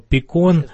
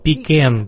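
First: The word ends with a 'con' sound. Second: The word ends with a 'can' sound. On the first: The speaker calls it right. "я вырос в Орлингтон, Тексас" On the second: The speaker calls it wrong. "похоже на как писсуар слово по-английски"

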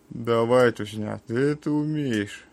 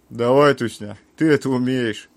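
First: It sounds lazy and completely uninterested. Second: It sounds firm, like giving an order. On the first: The speaker does not care at all. "как ленивая пезда, в которому похуй вообще на все" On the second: The speaker is giving an order. "приказывает"

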